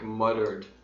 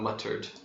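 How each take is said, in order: First: The middle consonant is a soft D sound. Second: The middle consonant is a clear T sound. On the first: The speaker calls it right. "It sounds more like a D" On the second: The speaker calls it wrong. "not muttered"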